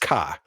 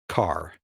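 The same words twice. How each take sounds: First: It is said in a Boston accent. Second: It is said in a standard accent. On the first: "I'm from Boston. Boston. It's car" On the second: "I say it that way because now I know the alphabet"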